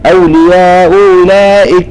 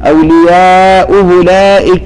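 The two takes are said the same way.

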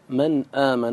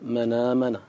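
First: The glottal stop is fully pronounced. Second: The glottal stop is dropped, its vowel moved back.

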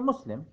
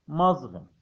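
First: The middle consonant is a plain s sound. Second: The middle consonant is a voiced z sound. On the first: "المسلم بالإنجليزية مسلم" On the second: "طبعا تنطق مظلم بالأمريكي"

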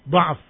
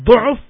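First: The first vowel is an open 'a' sound. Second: The first vowel is a rounded 'u' sound. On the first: It refers to weakness of thinking or memory. "kalau da'af dengan fathah" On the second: It refers to weakness of the body. "kalau dengan dhammah du'uf"

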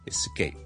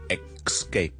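First: It begins with an 'es' sound, with no K. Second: It begins with an 'ex' sound, with a K. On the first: The speaker calls it right. "完之後加個S 音就變咗is is is escape" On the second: The speaker calls it wrong. "好多人咧，互相嘅读成咧系escape 嘅"

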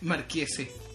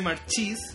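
First: The middle consonant is a k sound. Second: The middle consonant is a ch sound. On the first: The speaker calls it right. "se dice Marquese" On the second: The speaker calls it wrong. "no se pronuncia Marchis"

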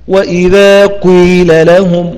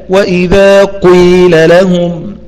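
The two takes are said the same way.

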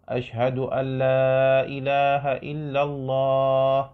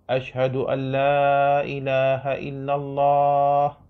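The two takes are said the same way.

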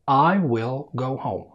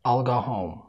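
First: The sentence is spoken slowly and carefully. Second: The sentence is spoken quickly and hurriedly. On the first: "السرعة الهادية في الكلام" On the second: "المستعجل"

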